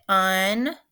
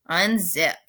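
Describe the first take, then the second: First: "Unzip" in two separate beats, un, pause, zip; split into syllables. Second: Said in the usual way. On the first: Shown as a demonstration. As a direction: break "Unzip" cleanly between un and zip. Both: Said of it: "just the way I separated it".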